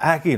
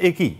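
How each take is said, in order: First: The word has its standard Bengali pronunciation. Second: The word has a regional, non-standard pronunciation. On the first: The speaker calls it right. "একই নয়" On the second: The speaker calls it wrong. "আমি বলতাম একই"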